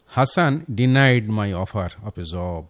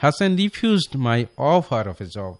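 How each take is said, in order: First: Slow dictation of the wrong sentence; slow wrong example. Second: Slow dictation of the right sentence; slow correct example. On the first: Teacher reads the wrong sentence to listeners, slowly. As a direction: spell it out slowly as the error. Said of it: "এটা একটি ভুল sentence". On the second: Teacher gives listeners the right sentence, slowly. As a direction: read the corrected version slowly. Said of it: "সে এটাকে refuse করলো". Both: Shown as a demonstration.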